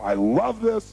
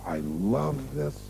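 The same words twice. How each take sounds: First: The phrase is spoken quickly. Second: The phrase is spoken slowly. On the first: "Did they say it fast?" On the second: "Did they say it slow?"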